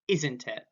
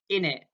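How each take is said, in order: First: The phrase is pronounced in full. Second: The phrase is reduced, dropping sounds. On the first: "instead of isn't it" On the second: "in it, or instead of isn't it"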